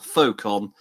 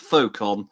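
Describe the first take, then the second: First: The X is silent, like foe. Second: The X is silent, like foe.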